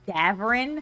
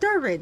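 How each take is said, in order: First: The R sound comes after the V. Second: The R sound comes before the V. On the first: The speaker calls it right. "his name is actually Davrin" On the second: The speaker calls it wrong. "I keep calling him Darvin"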